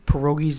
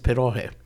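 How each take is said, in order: First: It is pronounced the Polish way. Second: It is pronounced the Ukrainian way. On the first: "Pierogies is a Polish pronunciation" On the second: "the Ukrainian pronunciation is pierogi"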